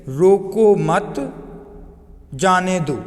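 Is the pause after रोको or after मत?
after मत. The pause comes after मत.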